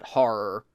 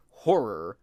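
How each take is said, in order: First: "horror" squeezed into one syllable, like "har"; odd regional pronunciation. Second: Said in the usual way. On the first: Shown as a demonstration. Showing how a friend said it oddly, regional "horror" as "har". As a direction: say "horror" as "har", with an open first vowel. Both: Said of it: "he said it oddly".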